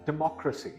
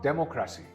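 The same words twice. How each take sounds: First: The stress is on the second syllable. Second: The stress is not on the second syllable. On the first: The speaker calls it right. "The second syllable is stressed" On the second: The speaker calls it wrong. "This word is not democracy"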